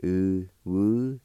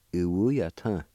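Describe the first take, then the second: First: Uwuyatan stretched out slowly, syllables spaced; slow Cherokee demo. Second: Said in the usual way. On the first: Shown as a demonstration. Teacher slowing the word down for learners. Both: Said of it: "It's pronounced like this".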